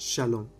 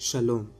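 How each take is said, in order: Both takes have the same delivery.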